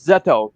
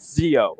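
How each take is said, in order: First: The name is pronounced with a t sound. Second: The name is pronounced without a t sound. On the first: The speaker calls it right. "that's Zeto" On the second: The speaker calls it wrong. "not Zio"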